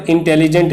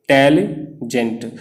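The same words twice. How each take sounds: First: Said in the usual way. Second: इंटेलिजेंट drawn out slowly, syllable by syllable; slow syllable demo. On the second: Shown as a demonstration. Teacher showing students the syllables of इंटेलिजेंट, slowly. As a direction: stretch इंटेलिजेंट so each vowel sound is heard. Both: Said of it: "इसमें आप देख रहे हैं".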